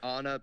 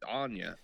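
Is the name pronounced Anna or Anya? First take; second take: Anna; Anya. First: The name is said with a plain n sound. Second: The name is said with an ny sound. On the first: The speaker calls it wrong. "I've been saying Anna" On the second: The speaker calls it right. "but it looks like it's Anya"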